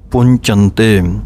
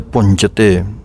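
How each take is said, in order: First: The middle syllable carries a nasal sound. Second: The middle syllable has no nasal sound. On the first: The speaker calls it right. "ਟਿੱਪੀ ਲੱਗੀ ਹੋਈ ਹੈ ਅਤੇ ਪਾਠ ਬਣ ਰਿਹਾ ਹੈ ਪੁੰਚੰਤੇ" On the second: The speaker calls it wrong. "ਅਗਰ ਚੱਚੇ ਦੇ ਉੱਤੇ ਟਿੱਪੀ ਨਾ ਬੋਲੀਏ ਤਾਂ ਪਾਠ ਬਣਦਾ ਹੈ ਪੁੰਚਤੇ"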